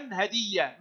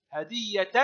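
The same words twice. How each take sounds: First: هدية as "hadiyyah", ending on soft h; pausal ha. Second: هدية as "hadiyyatan", t and ending heard; sounded ta. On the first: Teacher showing pupils the stop, pausal h in هدية. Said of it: "وهاء عند الوقف". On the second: Teacher showing pupils connected reading, sounded t in هدية. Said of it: "تنطق تاء في الحركة". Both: Shown as a demonstration.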